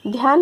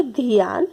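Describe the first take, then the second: First: Said in the usual way. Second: ध्यान said as "dhi-yaan"; mispronounced ध्यान. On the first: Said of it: "यहाँ पे आधा ध है". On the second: Shown as a demonstration. Teacher showing how people wrongly say it, ध्यान as "dhiyaan". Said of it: "लेकिन जब बोलते हैं".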